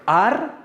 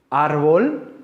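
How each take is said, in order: First: Ar-bol broken by a pause, AR high and rising; split into syllables. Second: Árbol slowly in one piece, rising at the end; word held whole. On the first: Teacher asking which is stronger, Ar-bol in two separate syllables. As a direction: lift AR high, pause, then drop bol. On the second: Teacher repeating the example for students, árbol whole with rising end. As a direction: say árbol whole, drawn out and questioning. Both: Shown as a demonstration. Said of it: "¿cuál suena más fuerte?".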